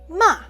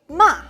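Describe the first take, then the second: No difference in how they are said.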